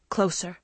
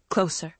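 No difference in how they are said.

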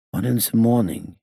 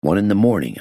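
First: Put-on high foreign-accented echo, TH said as Z; dazed repetition. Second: Said in the usual way. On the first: A narrator's reading. Gangster echoing the inspector's answer, high dazed accented voice. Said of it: "he repeated". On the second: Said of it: "I answered".

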